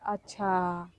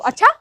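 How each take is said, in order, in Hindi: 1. यह शांत और समझदारी भरा लगता है। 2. यह तीखा और गुस्से वाला लगता है। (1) "जब समझ में आ जाता है तो बोलते हैं" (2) "जब गुस्सा हो तो"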